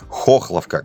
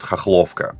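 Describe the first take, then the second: First: The stress is on the first syllable. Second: The stress is on the second syllable. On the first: This is how local residents say it. The speaker calls it right. "правильное ударение на первый слог" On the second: This is how visitors to the city say it. The speaker calls it wrong. "почему-то ставя ударение на второй слог"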